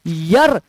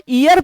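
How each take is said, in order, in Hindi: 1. शब्द की शुरुआत y ध्वनि से होती है। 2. शब्द की शुरुआत स्वर ध्वनि से होती है। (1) "यर इज द राइट प्रोनाउंसिएशन" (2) "वो प्रोनाउंसिएशन ही गलत है"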